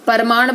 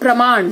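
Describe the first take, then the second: First: A vowel is inserted between the p and r. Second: The p and r are joined without a vowel. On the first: The speaker calls it wrong. "बोलते हो तो गलत" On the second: The speaker calls it right. "सही है"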